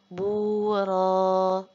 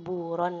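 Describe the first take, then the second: First: The word ends on a vowel, no final n. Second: The word ends with a final n sound. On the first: The reader stops on this word. The speaker calls it right. "di sini dibaca menjadi buro" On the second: The reading continues without a stop. The speaker calls it wrong. "bukan buron lagi"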